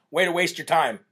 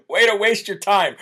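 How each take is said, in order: First: Said in the usual way. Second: Laughing through the words; giggling while repeating it. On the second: Shown as a demonstration.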